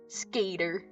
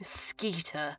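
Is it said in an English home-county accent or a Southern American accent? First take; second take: Southern American; home-county. First: It is said with a Southern American twang. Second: It is said in an English home-county accent.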